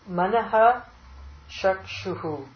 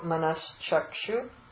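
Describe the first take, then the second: First: Manah ends in an h sound with an echo vowel. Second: Manah ends in a sh sound joined to chakshu. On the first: "So manaha becomes" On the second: "visarga goes to sha"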